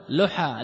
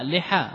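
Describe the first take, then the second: First: لحى said "luha", short u after the l; damma form. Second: لحى said "liha", short i after the l; kasra form. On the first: Teacher repeating one of two allowed plurals, damma form. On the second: Teacher repeating the other allowed plural, kasra form. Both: Shown as a demonstration. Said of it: "والجمع لحى بالكسر والضم".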